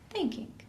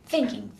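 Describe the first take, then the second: First: It is said in a short, pleasant, gentle way. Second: It is said in a harsh, tense way.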